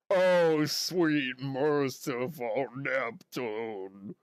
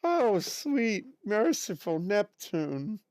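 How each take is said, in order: First: Slow, drawn-out fretful teacher voice; Mrs Puff impression. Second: Said in the usual way. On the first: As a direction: stretch out merciful Neptune in despair. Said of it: "Can you do a Missus Puff". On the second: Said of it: "does she ever say it in a regular voice".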